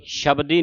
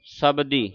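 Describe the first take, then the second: First: ਸ਼ਬਦੀ opening with "sh"; wrong sh sound. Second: ਸ਼ਬਦੀ as "sabdi", with s; plain s sound. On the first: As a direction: say ਸ਼ਬਦੀ as "shabdi". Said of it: "ਨਹੀਂ ਕਹਿਣਾ". (ਸ਼ਬਦੀ ਨੂੰ ਪੈਰ ਬਿੰਦੀ ਵਾਲੇ ਸ਼ ਨਾਲ) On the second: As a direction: open ਸ਼ਬਦੀ on s, not sh. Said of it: "ਉਚਾਰਨ ਸੱਸੇ ਦਾ ਹੋਵੇ". (ਸ਼ਬਦੀ ਨੂੰ ਸੱਸੇ ਨਾਲ "ਸਬਦੀ") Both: Shown as a demonstration.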